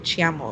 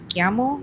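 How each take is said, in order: First: The ch is pronounced the Spanish way. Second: The ch is pronounced the Italian way. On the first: "I always want to say chiamo, like in Spanish" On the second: "it's chiamo"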